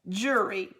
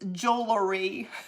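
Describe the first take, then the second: First: Said in two syllables, sounding like jury. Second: Said in full, with the jewel sound. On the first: This is how the speaker's family says it. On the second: This is the usual form.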